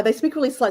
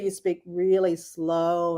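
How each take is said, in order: First: Said in the usual way. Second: Really slow. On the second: Shown as a demonstration. Showing how country people talk, really slow. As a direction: stretch it out very slowly, sinking low. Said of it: "when you're from the country".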